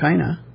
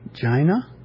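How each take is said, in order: First: The word begins with a hard K sound. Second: The word begins with a soft J sound. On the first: "If you just take the C-I-N-A" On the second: "if we pronounce it as a soft C"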